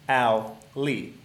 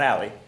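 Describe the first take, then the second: First: It is said slowly as two separate parts. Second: It is said quickly as one run-together word. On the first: The speaker calls it right. "I'm going to say it slowly" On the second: The speaker calls it wrong. "Not Allie"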